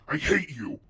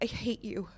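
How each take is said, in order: First: It sounds angry and harsh. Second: It sounds sad and brokenhearted.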